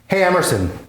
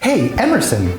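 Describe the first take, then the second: First: It is spoken in the speaker's natural voice. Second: It is spoken in an exaggerated put-on voice.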